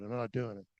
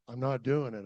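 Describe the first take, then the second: First: Softer, trailing echo of the refusal; quieter repeat. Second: Said in the usual way. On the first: Retold or imitated. Climber repeating his refusal to himself, softer. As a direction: say it again under your breath.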